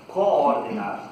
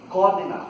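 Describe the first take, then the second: First: "Coordenar" with a long, doubled "oo" at the start; long vowel demo. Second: "Coordenar" with one short O, quick "cordena"; short vowel demo. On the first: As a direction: stretch the first O of "Coordenar". ("Coordenar" com o O bem longo, co-or-denar) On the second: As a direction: clip the first O of "Coordenar" short. ("Coordenar" com O curto, cordenar) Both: Shown as a demonstration. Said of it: "Vou repetir".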